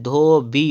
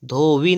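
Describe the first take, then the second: First: धोबी ending in bī; closed-lip b in slow धोबी; correct pronunciation. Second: धोबी ending in vī; wrong pronunciation. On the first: Teacher correcting, slow धोबी with b. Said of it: "धोबी होता है". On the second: Teacher showing the error, धोबी as dhovī. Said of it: "धोबी नहीं होता है". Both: Shown as a demonstration.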